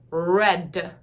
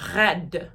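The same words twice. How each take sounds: First: The R is an English R, tongue curled. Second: The R is a French R, tongue kept low. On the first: "We all curve our tongues in a certain way" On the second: "if I tried to say red this way"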